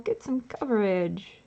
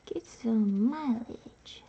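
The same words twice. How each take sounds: First: Said in the usual way. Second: Slow breathy whisper. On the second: Shown as a demonstration. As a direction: whisper it slowly. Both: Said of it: "repeats line whispered".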